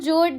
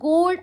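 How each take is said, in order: First: The word begins with a J sound. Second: The word begins with a hard G sound. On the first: The speaker calls it wrong. "It's not जोड़ guys" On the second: The speaker calls it right. "जब आप phonetics में देखोगे ना तो वो गोड आता है"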